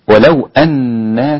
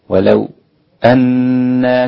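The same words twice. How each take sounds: First: The glottal stop is kept, with no pause before it. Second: A brief pause comes before the glottal stop. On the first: "هذه لباقي القراء" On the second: "الوقف أو السكت على الساكن المفصول هكذا"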